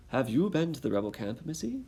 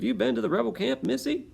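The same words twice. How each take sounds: First: Lightly British redcoat, missy lifted much higher; a hint of a British soldier questioning. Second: Much higher, fast soldier voice; wrong voice. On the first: British redcoat questioning Dicey on the road, light British accent. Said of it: "I need to come up with a British voice". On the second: Acted. First try at the redcoat questioning Dicey, high squeaky voice. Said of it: "totally the wrong voice for that".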